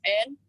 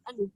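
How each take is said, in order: First: Said in the usual way. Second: N as a short humming "n" sound; letter sound of N. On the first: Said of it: "simbolnya huruf N". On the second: Shown as a demonstration. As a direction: sound out N, not the letter name.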